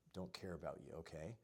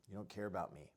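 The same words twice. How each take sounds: First: Calm mirroring of the wife's complaint, softly; calm quiet reflecting back. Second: Said in the usual way. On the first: Shown as a demonstration. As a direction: repeat it back gently and quietly. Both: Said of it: "you could reflect and just repeat".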